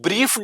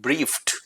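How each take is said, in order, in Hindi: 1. अंत की आवाज़ d जैसी बोली जाती है। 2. अंत की आवाज़ t जैसी बोली जाती है। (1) "ब्रीफ्ड नहीं पढ़ेंगे इसको" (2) "इसको बोलेंगे हम"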